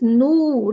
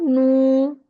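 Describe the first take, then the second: First: Slow "nu" with a pure rounded u. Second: "nu" with a wrongly coloured, held sound. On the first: Teacher corrects the mistake, pure nu. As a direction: say "nu" purely, lips round. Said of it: "So pronounce nu". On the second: Teacher shows what it is not, wrong nu. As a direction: hold "nu" impurely, as the mistake. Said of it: "This is not nu". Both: Shown as a demonstration.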